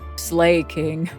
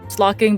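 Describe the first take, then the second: First: The first syllable sounds like 'slay'. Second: The first syllable sounds like 'slah'. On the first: This is the speaker's childhood habit. "I've always called him like growing up Slay King" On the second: This is believed to be the official name. "I think it's called slocking"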